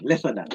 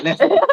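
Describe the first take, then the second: First: Said in the usual way. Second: Higher and louder, rising on "that"; a hammed-up high-pitched reprimand; mock squeaky scold. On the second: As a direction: yelp it like a playful telling-off. Jokingly repeating a scolding phrase.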